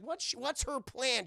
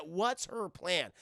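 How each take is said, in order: First: Raised pitch, rhetorical question; intrigued question. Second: Slow, drawn-out rhetorical question; deliberate repeated question. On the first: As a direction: toss the puzzle excitedly to the audience. Asks chat, then repeats slowly. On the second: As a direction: let the puzzle hang, word by word. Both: Real, not acted.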